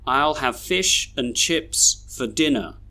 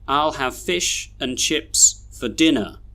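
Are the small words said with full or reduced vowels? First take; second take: reduced; reduced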